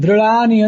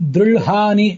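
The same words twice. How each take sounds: First: The middle consonant is a plain l sound. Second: The middle consonant is an l followed by h. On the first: "ಕೇವಲ ಳಕಾರವನ್ನು ಓದಬಾರದು" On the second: "ಳಕಾರಕ್ಕೆ ಹಕಾರವನ್ನು ಕೊಟ್ಟು ಒತ್ತಕ್ಷರವನ್ನು ಕೊಟ್ಟು ಓದಬಾರದು"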